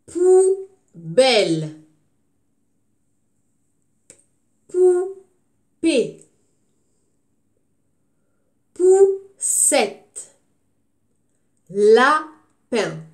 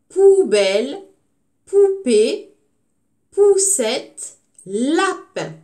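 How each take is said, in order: First: Poubelle, Poupée, Poussette, Lapin each read out loud and slow; words read out clearly. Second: Poubelle, poupée, poussette, lapin read out loud with the first syllable stressed; repeated word list. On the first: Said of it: "regardez et écoutez bien". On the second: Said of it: "Je redis les mots". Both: Shown as a demonstration.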